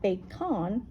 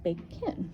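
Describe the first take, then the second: First: The second vowel is a full, clear vowel. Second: The second vowel is a weak uh sound. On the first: The speaker calls it wrong. "It's not bacon" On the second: The speaker calls it right. "it's bacon ... it has that schwa"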